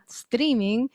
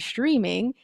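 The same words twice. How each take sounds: First: The word is said with a Spanish accent. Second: The word is said with an English accent. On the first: This is how the word is said in Spanish. "saying it with a Spanish accent" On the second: This is the speaker's habitual way of saying it. "I'm used to saying streaming"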